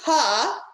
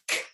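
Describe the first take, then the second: First: The k sound ends with an added vowel. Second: The k sound stops short with no vowel. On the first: The speaker calls it wrong. "don't say K, because that is adding a sound to the end of that sound" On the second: The speaker calls it right. "make sure you just say K"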